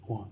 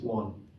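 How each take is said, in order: First: The vowel matches the vowel of sun. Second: The same.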